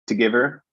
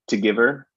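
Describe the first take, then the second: The two takes are said the same way.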